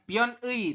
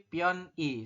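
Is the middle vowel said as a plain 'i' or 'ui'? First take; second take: ui; plain i. First: The middle vowel is said as 'ui'. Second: The middle vowel is said as plain 'i'. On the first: The speaker calls it wrong. "bukan pion I" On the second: The speaker calls it right. "tapi pion I"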